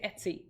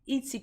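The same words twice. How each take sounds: First: "Etsy" opening on the vowel of "bet"; Etsy as ET-see. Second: "Etsy" opening on the vowel of "eat"; Etsy as EAT-see. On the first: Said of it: "or do you say Etsy". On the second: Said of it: "I say Etsy as in, like, E A T". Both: Shown as a demonstration.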